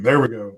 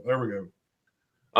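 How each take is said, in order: First: Said in the usual way. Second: "There we go" said softly and slowly, drawn out. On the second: Shown as a demonstration. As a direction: ease "There we go" out slowly and quietly. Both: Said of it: "Hold on".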